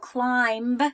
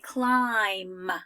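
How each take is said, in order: First: The final b sound is pronounced. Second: The final b sound is silent. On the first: The speaker calls it wrong. "I don't say" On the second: The speaker calls it right. "I say climb"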